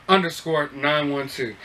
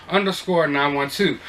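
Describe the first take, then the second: The two takes are said the same way.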